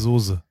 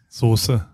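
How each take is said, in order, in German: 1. Das mittlere s ist weich und stimmhaft. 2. Das mittlere s ist scharf und stimmlos. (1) "Warmen Mönchengladbacher S sozusagen" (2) "Also ich würde es mit scharfem S besprechen"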